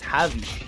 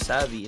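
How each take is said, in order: First: The name begins with a J sound. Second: The name begins with an S sound. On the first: The speaker calls it right. "it's Javi, as in J" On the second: The speaker calls it wrong. "is not actually pronounced as Savi"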